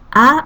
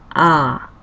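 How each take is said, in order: First: The vowel is held briefly. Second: The vowel is held twice as long.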